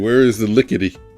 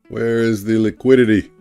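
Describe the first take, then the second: First: The last word is clipped to sound like lickety. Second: The last word is said with all its syllables. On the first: The speaker calls it wrong. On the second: The speaker calls it right.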